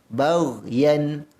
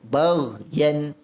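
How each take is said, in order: Both takes have the same delivery.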